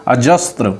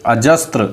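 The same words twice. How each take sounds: The two takes are said the same way.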